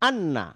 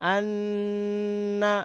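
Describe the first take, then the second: First: The doubled n is cut short without nasal hum. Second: The doubled n is held with a long nasal hum. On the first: The speaker calls it wrong. "তাহলে এটা হবে ভুল।" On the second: The speaker calls it right. "এটা হচ্ছে সঠিক।"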